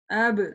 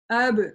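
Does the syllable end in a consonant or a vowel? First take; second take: consonant; consonant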